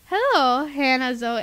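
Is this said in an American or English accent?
American. It is said in her normal American accent. "I forgot about my English accent"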